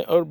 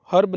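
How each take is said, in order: First: "अर्ब" beginning on the vowel; silent H. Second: "हर्ब" with an audible H; wrong, H sounded. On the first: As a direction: say "अर्ब" without the H. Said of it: "बोलना है". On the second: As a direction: say "हर्ब", pronouncing the first H. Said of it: "नहीं बोलना है". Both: Shown as a demonstration.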